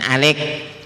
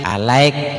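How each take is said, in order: First: The word is said with two syllables, a-lik. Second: The word is said with three syllables, a-la-ik. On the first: The speaker calls it wrong. "jangan alik" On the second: The speaker calls it right. "alaik jangan alik"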